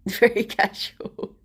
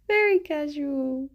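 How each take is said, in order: First: Said in the usual way. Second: "Very casual" said higher with amusement; amused remark. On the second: Real, not acted. Teasing the dog about acting innocent, amused and higher.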